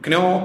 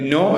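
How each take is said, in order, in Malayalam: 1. ഈ വാക്കിന്റെ തുടക്കം k ശബ്ദത്തോടെയാണ്. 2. ഈ വാക്കിന്റെ തുടക്കം n ശബ്ദത്തോടെയാണ്. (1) "അത് ക്നോ എന്ന് വായിക്കരുത്" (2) "നോ എന്ന് വായിക്കാവൂ"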